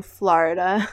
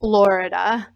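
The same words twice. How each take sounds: First: Florida said the local way, as "Flarda"; regional pronunciation. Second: Florida with a full "or", "FLOR-i-da"; standard pronunciation. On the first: Explaining what people tease them for, Florida in the local pronunciation. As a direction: say Florida with a flattened first vowel, "FLAR-da". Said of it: "make fun of me for saying". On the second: Contrasting with the teased version, Florida in the standard pronunciation. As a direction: say Florida carefully with a rounded first vowel. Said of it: "instead of, like, Florida". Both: Shown as a demonstration.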